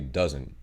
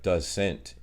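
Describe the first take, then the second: First: The final T is dropped, sounding like dozen. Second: The final T sound is clearly pronounced. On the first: "we all say doesn't ... it sounds like saying dozen" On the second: "I'm pretty sure it's like doesn't"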